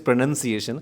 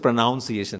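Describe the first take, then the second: First: The second syllable sounds like 'nun'. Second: The second syllable sounds like 'nounce'. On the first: The speaker calls it right. "Actually, it is pronunciation" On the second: The speaker calls it wrong. "Some people say pronunciation"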